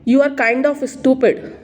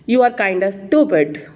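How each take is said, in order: First: 'Kind of' is said fully as two words. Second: 'Kind of' is run together as 'kinda'. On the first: "हम लोग बोलते हैं" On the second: "native speaker कैसे बोलेंगे?"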